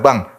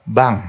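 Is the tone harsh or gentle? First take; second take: harsh; gentle. First: It is said harshly and roughly. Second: It is said softly and gently.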